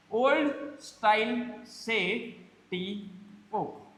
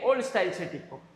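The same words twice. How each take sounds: First: Very slow, drawn-out demo. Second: Said in the usual way. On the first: Shown as a demonstration. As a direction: stretch each word for the class. (बहुत धीरे खींचकर बोलना)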